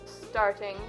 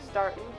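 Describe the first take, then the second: First: The word ends with a full ing sound. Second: The word ends with in, without g.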